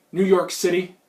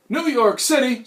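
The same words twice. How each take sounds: First: Said in the usual way. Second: Salsa commercial catchphrase. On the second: Acted. Flashback to a salsa commercial, mock-outraged cry. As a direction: exclaim it like an ad cowboy. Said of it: "Pace Picante flashback".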